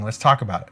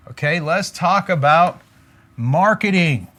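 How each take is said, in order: First: Said in the usual way. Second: Announcer style. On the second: Shown as a demonstration. Coach introducing the marketing segment to viewers, announcer-style. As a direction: present the topic like a show segment.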